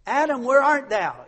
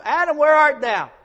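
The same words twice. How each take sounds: First: Loud, high call across the garden; God calling out. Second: Louder, higher ringing call; God calling out. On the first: God calling Adam, loud and high. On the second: God calling Adam again, very loud and high. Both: Retold or imitated.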